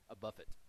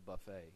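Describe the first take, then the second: First: The word is said in an Appalachian pronunciation. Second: The word is said in a standard pronunciation.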